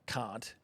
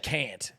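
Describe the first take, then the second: First: It is said in an Australian accent. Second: It is said in an American accent. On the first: This is how the speaker's own people say it. "say we say like can't" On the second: This is how the locals say it. "and they say"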